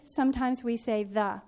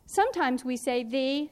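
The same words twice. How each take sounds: First: "the" said as "thuh"; short the. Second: "the" said as "thee"; long the. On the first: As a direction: say "the" as "thuh", short neutral vowel. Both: Shown as a demonstration.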